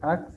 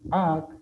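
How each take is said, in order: First: The vowel is short and unaccented. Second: The vowel is long and accented. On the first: The speaker calls it wrong. "Aquí ya no se dice A" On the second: The speaker calls it right. "se pronuncia más largo el, la palabra la primera letra porque tiene el acento"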